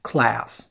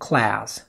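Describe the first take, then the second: No difference in how they are said.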